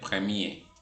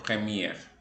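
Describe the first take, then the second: First: The final R is silent. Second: The final R is pronounced. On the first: The speaker calls it right. "se dice premier" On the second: The speaker calls it wrong. "y no premier"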